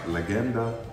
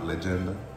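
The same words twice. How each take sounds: First: The g is said as a hard g. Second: The g is said as a soft g. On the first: The speaker calls it right. "I think it's a hard G" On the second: The speaker calls it wrong. "not Legenda"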